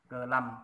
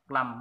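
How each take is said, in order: First: It is split into two separate syllables. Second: It is said quickly as one joined syllable. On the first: "mình đánh vần đấy" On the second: "đọc đọc liền, đọc nhanh ấy"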